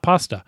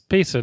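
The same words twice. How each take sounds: First: The first vowel sounds like the one in pot. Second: The first vowel sounds like the one in paste. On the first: It names the Italian noodle dish. The speaker calls it wrong. "not pasta" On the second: It comes from copying and pasting stories. The speaker calls it right. "Yes, pasta, because you copy and paste the stories"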